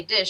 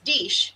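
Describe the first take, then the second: First: Said in the usual way. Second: "deesh" with a long ee vowel; imitating mom's "deesh" for dish; mother's accent. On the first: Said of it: "she doesn't say dish". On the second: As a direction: say "deesh", the short i turned to ee. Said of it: "she says deesh".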